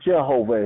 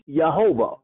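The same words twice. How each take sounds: First: The name begins with a J sound. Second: The name begins with a Y sound. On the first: This is the common form that uses the English letter J. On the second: This is the form before the English letter J was added.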